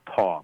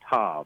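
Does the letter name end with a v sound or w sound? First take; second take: w sound; v sound. First: The word ends with a w sound. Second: The word ends with a v sound. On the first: "some will pronounce it taw" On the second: "It's the letter tav"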